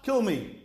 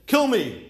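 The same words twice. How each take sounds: First: Said in the usual way. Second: Raised and louder, a bold demand; mock demand. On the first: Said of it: "Meaning, either be mechel them". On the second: Moshe challenging God with a raised, demanding "Kill me". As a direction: Moshe voiced as if daring God, punching "Kill". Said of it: "Moshe Rabbeinu says".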